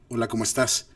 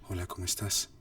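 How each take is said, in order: First: It is said in a full, projected voice. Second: It is said in a whisper. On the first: "con la voz más colocada" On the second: "susurrándolo"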